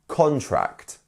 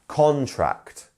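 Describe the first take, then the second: First: The stress is on the first syllable. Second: The same.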